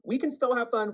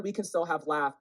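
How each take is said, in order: First: Bright emphatic promise; excited. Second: Said in the usual way. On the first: Real, not acted. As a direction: hit CAN with a big lift. Excited reassurance to viewers.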